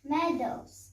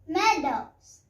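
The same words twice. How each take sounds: First: The word is said at normal volume. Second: The word is said louder.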